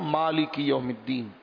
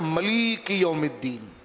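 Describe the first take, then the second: First: The first word's long vowel is in its first syllable. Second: The first word's long vowel is in its second syllable. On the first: This is the commonly recited reading. "ہم پڑھتے ہیں" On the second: "بنو ثقیف حوازن پڑھتے تھے"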